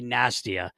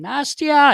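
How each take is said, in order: First: Said in the usual way. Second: High, loud holler of a name; imitated scream. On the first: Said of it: "And he called me Nastia". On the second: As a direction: holler it down a hallway, imitating him. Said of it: "he's screaming my name".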